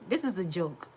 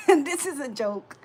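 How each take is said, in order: First: Said in the usual way. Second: This is a joke said through real laughter, louder and slower; This is a joke broken up by her own laughter, louder and slower; laughing. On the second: Real, not acted. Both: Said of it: "Let me just laugh".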